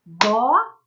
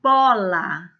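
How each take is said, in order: First: Bola split into two beats, bo-la, rising at the end; teacher demo, splitting Bola into syllables; clapped syllables. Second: Bola said clearly and firmly, alone; clear model word. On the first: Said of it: "uma palma, para cada sílaba". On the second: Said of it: "Ouçam e observem". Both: Shown as a demonstration.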